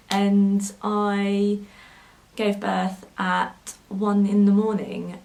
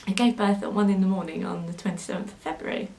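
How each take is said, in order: First: Slow, choked-up words, a little louder; fighting back real tears, slowly; getting emotional. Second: Said in the usual way. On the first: Real, not acted. Mother recalling her son's birth, choking up slowly. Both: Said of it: "I'm getting a little bit emotional".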